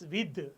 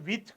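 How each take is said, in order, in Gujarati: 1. અંતિમ ધ્વનિ ઘોષ th છે. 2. અંતિમ ધ્વનિ અઘોષ th છે. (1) "એકચ્યુઅલી ઇટ ઇઝ વિધ, એનો ઉચ્ચાર ધ છે" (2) "નવ્વાણું પોઈન્ટ નવ્વાણું ટકા લોકો એનો ઉચ્ચાર વિથ કરે છે"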